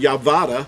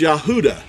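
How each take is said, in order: First: The middle of the name has a V sound. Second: The middle of the name has no V or W. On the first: The speaker calls it wrong. "we could not pronounce Yehuda Yavada" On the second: The speaker calls it right. "It's Yahuda"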